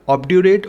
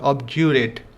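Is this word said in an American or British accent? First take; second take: American; British. First: It is said in an American accent. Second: It is said in a British accent. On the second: "British English"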